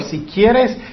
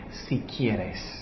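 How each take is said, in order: First: Said in the usual way. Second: Soft, much lower, humble si quieres; humble plea. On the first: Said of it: "'Señor". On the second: Retold or imitated. Preacher stresses the leper's humble plea, soft and low. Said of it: "Él dijo, "¿Qué?".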